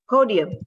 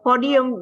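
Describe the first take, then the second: First: The O vowel glides toward an oo sound. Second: The O vowel stays pure without a glide. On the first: The speaker calls it right. "but podium" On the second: The speaker calls it wrong. "not podium"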